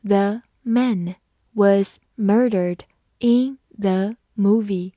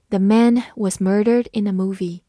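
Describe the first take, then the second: First: Each word set apart by a pause; slow model reading, word by word. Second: Said in the usual way. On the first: Shown as a demonstration. Teacher modelling a sentence for learners, slowly word by word. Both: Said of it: "好，慢慢来读".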